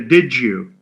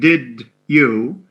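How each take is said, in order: First: The d and y sounds blend into j. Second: The d and y sounds are kept separate. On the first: "they say did you" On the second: "instead of saying did you"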